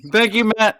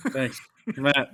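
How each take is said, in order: First: Higher, louder mock gratitude; sarcastic thanks. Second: Said in the usual way. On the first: Sarcastic thanks to teasing cohost.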